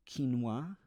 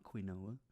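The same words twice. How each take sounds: First: Quinoa said as "keen-wah", two syllables; correct quinoa. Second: Quinoa said "kwin-oh-ah", three syllables; wrong quinoa. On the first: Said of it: "I said it right". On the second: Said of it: "I said it right, it's not quinoa". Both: Shown as a demonstration.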